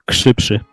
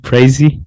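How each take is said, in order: First: The name is said with Polish sounds. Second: The name is said with English-style sounds. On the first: "In Poland, that would be krzywszy" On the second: "when you said what was it?"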